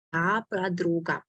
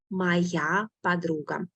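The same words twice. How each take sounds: First: Said in the usual way. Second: Slowed Моя подруга, every syllable of Моя laid out; slow model reading. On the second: Shown as a demonstration.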